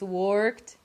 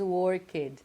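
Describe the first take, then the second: First: The word is said as one syllable. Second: The word is said as two syllables. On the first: The speaker calls it right. "with one syllable only" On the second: The speaker calls it wrong. "we all imagine that the pronunciation is worked. So we have two syllables"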